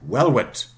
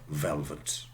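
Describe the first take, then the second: First: The word begins with a w sound. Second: The word begins with a v sound. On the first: The speaker calls it wrong. "I would say something like velvet instead of velvet" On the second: The speaker calls it right. "instead of velvet"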